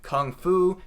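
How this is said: It is said with an American English pronunciation. The speaker calls it wrong. "I'm pronouncing these like an American would"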